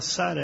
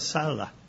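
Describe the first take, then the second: First: The middle consonant is a tapped R sound. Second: The middle consonant is an L sound. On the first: The speaker calls it right. "ela não falava Sara" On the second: The speaker calls it wrong. "ela falava Sala"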